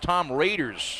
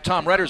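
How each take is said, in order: First: The surname sounds like 'Raiders'. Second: The surname does not sound like 'Raiders'. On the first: The speaker calls it right. "I believe the correct pronunciation is Raiders" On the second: The speaker calls it wrong. "I say Tom Redders"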